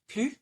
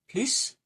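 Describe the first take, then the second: First: The word ends with no consonant sound. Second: The word ends with an audible S sound. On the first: "without an S" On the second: "with an S"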